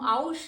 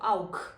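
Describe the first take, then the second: First: The word ends with a soft sh sound. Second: The word ends with a harsh throaty kh sound. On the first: The speaker calls it wrong. "હું આઉશ નહીં બોલું, that's wrong" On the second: The speaker calls it right. "ખ જેવો"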